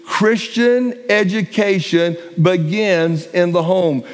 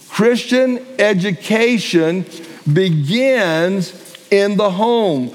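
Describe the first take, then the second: First: Said in the usual way. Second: "Christian education" then a slow, weighty "begins in the home"; slow emphatic restatement. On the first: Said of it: "first statement". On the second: Shown as a demonstration. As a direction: land each word slowly, stress "home". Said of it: "repeated for emphasis".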